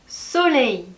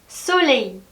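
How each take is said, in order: The two takes are said the same way.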